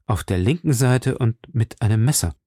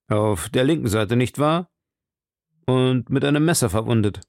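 First: "linken Seite" stated evenly, falling to the end; confirming statement. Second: "linken Seite" put as a question, lifting at "nicht wahr"; interrupting question. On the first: Queen confirms her dream, "linken Seite" as a falling statement. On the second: Duke interrupts the queen's dream, questioning "linken Seite", rising on "wahr". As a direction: break in to check "linken Seite", voice climbing on "wahr". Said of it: "unterbrach sie Buckingham". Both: A narrator's reading.

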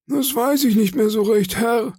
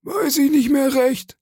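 First: Very high, thin-witted deferential voice; meek evasive sailor. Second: Extremely high, squeaky mimicry; mocking echo. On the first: Acted. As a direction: plead ignorance to the boss, high-pitched. Cowed sailor gives an evasive answer. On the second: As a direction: parrot the sailor's excuse in falsetto. Silver mockingly echoes the sailor's answer.

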